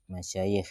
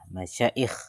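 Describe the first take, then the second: First: The middle consonant is a y sound. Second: The middle consonant is a glottal stop. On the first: This is the usual reading. "Dibaca dengan huruf ya" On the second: This is an irregular reading. "dibaca dengan tambah hamzah"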